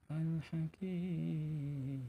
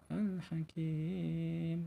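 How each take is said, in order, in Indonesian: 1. Huruf mad dibaca panjang enam harakat. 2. Huruf mad dibaca panjang empat harakat.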